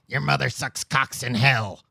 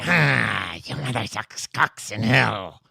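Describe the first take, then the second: First: It is said in a normal voice. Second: It is said in a possessed devil voice.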